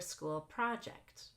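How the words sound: The stress falls on the word project. The speaker calls it right. "We actually just stress project for a school project"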